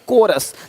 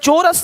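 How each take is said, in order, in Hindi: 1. शब्द की शुरुआत k की आवाज़ से होती है। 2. शब्द की शुरुआत ch की आवाज़ से होती है। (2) "चोरस नहीं"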